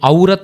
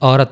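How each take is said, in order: First: The first vowel is a gliding 'au' sound. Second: The first vowel is a plain 'o' sound. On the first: The speaker calls it wrong. "దీన్ని ఔరత్ అనకుండా" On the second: The speaker calls it right. "ఓరత్ ఓరత్ అంటాం అనమాట"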